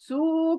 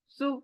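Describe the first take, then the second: First: The final vowel is drawn out long. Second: The final vowel is cut off short. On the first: The speaker calls it wrong. "सू करना नहीं है" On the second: The speaker calls it right. "जल्दी में खत्म करना है इस साउंड को"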